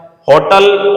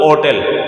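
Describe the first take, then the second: First: होटल said with a clear h, "hotel"; होटल with the h fully voiced at the start; with the h sounded. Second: होटल said as "otel", dropping the h; होटल as "ओटल", h left silent. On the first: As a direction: pronounce होटल starting on a breathy h. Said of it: "है आ रहा है उसके अनुसार तो ए use करना है". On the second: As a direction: say होटल opening straight on the o vowel, no h. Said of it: "ओ आ रहा है उसके अनुसार एन यूज़ करना". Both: Shown as a demonstration.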